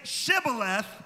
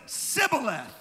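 First: The word begins with a 'sh' sound. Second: The word begins with an 's' sound. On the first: The speaker calls it right. "they had never developed the sound of the SH" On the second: The speaker calls it wrong. "they came out as Sibboleth"

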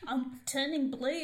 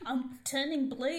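First: It is said in an Irish accent. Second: The same.

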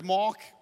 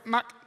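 First: The word is said in a South African accent. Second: The word is said in a Singaporean accent. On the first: "If you're South African" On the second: "If you're from Singapore"

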